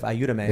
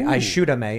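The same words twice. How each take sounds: First: The middle consonant is a y sound. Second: The middle consonant is a sh sound. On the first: This is the Mexican way of saying it. "instead of" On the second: This is the Uruguayan way of saying it. "they say sha instead of ya"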